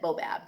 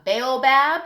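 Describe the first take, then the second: First: "boabab" said as BO-bab, two beats; alternate pronunciation. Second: "baobab" said as BAY-oh-bab, long first vowel; alternate pronunciation. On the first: Teacher showing kids how other people say it, "boabab" as BO-bab. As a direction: say "boabab" short, starting with BO. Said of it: "other people pronounce it boabab". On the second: Teacher showing kids how some people say it, "baobab" as BAY-oh-bab. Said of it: "Sometimes people say it's a baobab". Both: Shown as a demonstration.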